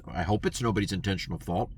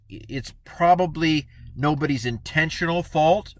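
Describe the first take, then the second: First: Softer hope. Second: Said in the usual way. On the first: Shown as a demonstration.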